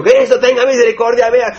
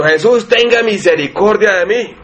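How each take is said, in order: First: Much higher, straining cry for mercy; mock outcry. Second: Slow, pleading cry for mercy, a little higher; súplica desesperada. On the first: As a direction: cry out to Christ to make a scene, but not at full volume. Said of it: "Hago un escándalo hasta que me escuche". (clamor agudo, a medio grito, pidiendo misericordia) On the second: Retold or imitated. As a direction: beg slowly like a desperate blind man calling out. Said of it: "con desespero a llamar a Jesucristo". (súplica lenta y desesperada)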